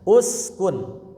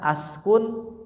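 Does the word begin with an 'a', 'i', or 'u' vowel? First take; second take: u; a. First: The word begins with a 'u' vowel. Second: The word begins with an 'a' vowel. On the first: The speaker calls it right. "salahnya uskun" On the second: The speaker calls it wrong. "jangan askun"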